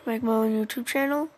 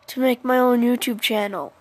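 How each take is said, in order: First: It is said quietly and unclearly. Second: It is said loudly and clearly.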